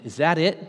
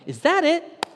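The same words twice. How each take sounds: First: Said in the usual way. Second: Desperate question. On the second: Retold or imitated. Repeated, high and strained.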